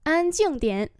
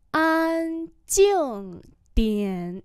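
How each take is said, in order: First: Said in the usual way. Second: Each syllable drawn out slowly; slow teaching repeat. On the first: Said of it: "normal model". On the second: Shown as a demonstration. Teacher slowly models the phrase for students, drawn out. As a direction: spell it out slowly for learners. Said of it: "slow repeat".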